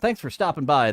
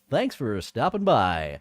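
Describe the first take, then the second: First: It is said in a normal speaking voice. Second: It is said in a put-on radio announcer voice.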